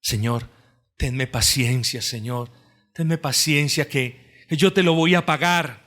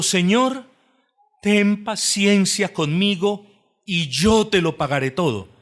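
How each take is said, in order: First: A softer, humble plea for mercy; quiet pleading. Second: High, loud, begging cry for patience; pleading servant. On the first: Retold or imitated. The listener himself asks the Lord, mildly pleading. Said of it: "anhela ser perdonado". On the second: A narrator's reading. Servant on his knees begs the king, loud pleading. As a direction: beg the master on your knees. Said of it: "postrado le suplica diciendo".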